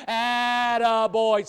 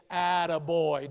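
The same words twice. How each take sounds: First: "Attaboy" called out loud and slow. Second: Said in the usual way. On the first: Shown as a demonstration. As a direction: cheer "Attaboy" loudly to your neighbour. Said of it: "Do it right now". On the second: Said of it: "pat 'em on the back and say".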